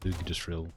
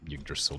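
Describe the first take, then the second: First: The word begins with an "ig" sound. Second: The word begins with a "yuh" sound. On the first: The speaker calls it right. "I know it's pronounced like Ig" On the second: The speaker calls it wrong. "Keep saying "yuh" as if that's how it's pronounced"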